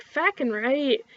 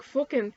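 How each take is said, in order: First: "Fackin'" with a wide, flattened A, inland Canadian; raised-pitch inland Canadian "Fackin', right?"; inland Canadian accent. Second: "fuckin'" with a rounded OO, Newfoundland style; Newfoundland and Maritime OO in "fuckin'"; Newfie Maritimer accent. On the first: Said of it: "with more of the inland typical whatever". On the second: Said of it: "Newfie Maritimers are more like". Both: Shown as a demonstration.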